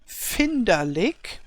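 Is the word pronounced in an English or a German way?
German. It is pronounced the German way. "the German word would be"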